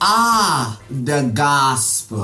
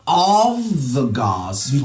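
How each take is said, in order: First: The first word is an open 'ah' without v. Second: The first word is a full 'of' ending in v. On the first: The speaker calls it right. "It's ah the gospel" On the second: The speaker calls it wrong. "It's not of the gospel"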